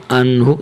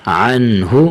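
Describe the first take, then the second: First: انہ said with a plain alif and no ع sound; the children's mistake, انہ with no ain; wrong plain alif. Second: عنہ said with a clear throaty ع; correct ain. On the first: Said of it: "تو یہ غلط ہے". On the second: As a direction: bring out the ain sound in عنہ. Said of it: "عین کی اپنی آواز". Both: Shown as a demonstration.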